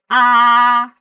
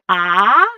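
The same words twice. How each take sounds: First: The pitch stays high and level. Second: The pitch dips low and comes back up.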